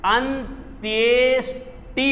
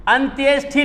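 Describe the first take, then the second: First: अंत्येष्टि slow and soft, ending in plain Tee; syllable by syllable अंत्येष्टि, unaspirated T; correct form. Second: अंत्येष्टि ending in aspirated THee; wrong form. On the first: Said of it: "ये शुद्ध है". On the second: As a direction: cite अंत्येष्टि as "antyesh-THee". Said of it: "ठी नहीं होता है". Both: Shown as a demonstration.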